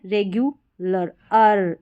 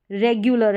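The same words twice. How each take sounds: First: "रेगुलर" split slowly as regu, lar, then "अर"; broken into syllables. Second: Said in the usual way. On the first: Shown as a demonstration. Teacher breaks a long spelling into pieces, slow syllables. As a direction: slowly break "रेगुलर" before its short "-lər" ending. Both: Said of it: "उसको तोड़कर हम पढ़ें".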